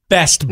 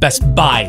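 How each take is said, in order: First: The stress is on the word Best. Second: The stress is on the word Buy.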